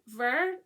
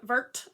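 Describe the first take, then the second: First: The word is said in a French way. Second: The word is said in an English way. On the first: "I'm going to say this wrong" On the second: "as I would say"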